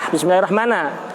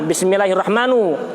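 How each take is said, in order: First: The word ends with an a vowel. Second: The word ends with a u vowel. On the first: The word is in the accusative case. "Apabila dibaca fathah" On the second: The word is in the nominative case. "Apabila yang pertama dibaca dhammah"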